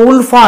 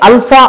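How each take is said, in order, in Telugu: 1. ఈ పదం 'oo' అచ్చుతో మొదలవుతుంది. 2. ఈ పదం 'ah' అచ్చుతో మొదలవుతుంది. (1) "మన మిగతా దేశంలో ఉల్ఫా అని" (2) "దీన్ని అల్ఫా అంటారు స్థానికంగా అస్సాంలో"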